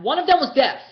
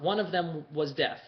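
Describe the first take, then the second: First: High, loud insistence; emphatic outburst. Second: Said in the usual way. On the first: Real, not acted. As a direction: burst out with it to settle the point. Emphatic repeat of own claim.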